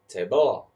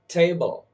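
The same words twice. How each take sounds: First: "table" with stress moved onto BLE; wrong-syllable stress. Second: "table" with a high, loud TA, falling away; stress on first syllable. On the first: Teacher showing how not to say table, second syllable stressed. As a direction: say "table" as ta-BLE, weak start, heavy ending. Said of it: "I don't say table". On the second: Teacher showing learners how to say table, first syllable stressed. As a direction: punch the TA in "table". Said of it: "notice how I say". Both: Shown as a demonstration.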